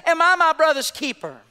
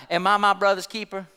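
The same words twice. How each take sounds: First: High, projected mock nonchalance; nonchalant retort. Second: Low, offhand retort with a touch of sarcasm; understated sarcasm. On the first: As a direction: preach the offhand comeback out to the room. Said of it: "so nonchalantly, he just says". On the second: Acted. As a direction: toss it back with mild sarcasm. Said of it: "somewhat with a sarcastic attitude".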